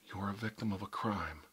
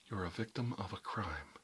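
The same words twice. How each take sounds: The two takes are said the same way.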